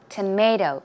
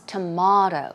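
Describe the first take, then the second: First: The middle vowel is an 'ay' sound. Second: The middle vowel is an 'ah' sound. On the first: This is the American way of saying it. "in America, of course, we say tomato" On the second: This is the British or Australian way of saying it. "But elsewhere, for example, it can be pronounced as tomato"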